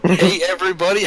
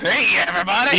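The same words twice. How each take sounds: First: It is said in his normal voice. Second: It is said in a Krusty the Clown voice.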